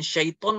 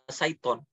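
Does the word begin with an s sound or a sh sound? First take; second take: Sh sound; S sound. First: The word begins with a sh sound. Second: The word begins with an s sound. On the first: The speaker calls it right. "bukan syaiton" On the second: The speaker calls it wrong. "malah saiton gitu"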